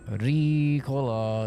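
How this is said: It starts with a soft D-like tap. "It's like a soft D almost"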